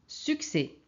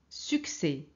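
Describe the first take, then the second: No difference in how they are said.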